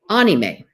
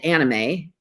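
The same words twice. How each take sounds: First: The word does not begin like 'animation'. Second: The word begins like the start of 'animation'. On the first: The speaker calls it right. "but it's actually pronounced anime" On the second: The speaker calls it wrong. "I always said anime because of animation"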